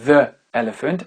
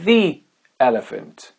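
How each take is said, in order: First: The article is said with a short 'thuh' vowel. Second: The article is said with a long 'thee' vowel. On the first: The speaker calls it wrong. "ça ne va pas être the elephant" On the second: The speaker calls it right. "mais bien the elephant"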